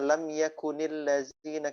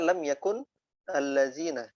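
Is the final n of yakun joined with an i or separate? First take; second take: joined; separate. First: Yakun is joined to the next word with an i. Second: Yakun ends in n, kept apart from the next word. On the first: "Ada kasr lam yakunil" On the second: "Asalnya kan lam yakun allazina"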